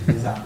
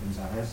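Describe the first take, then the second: First: The word ends without a final s sound. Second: The word ends with an audible s sound. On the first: "On dit les arts ou les arès?" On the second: "c'était la version grecque"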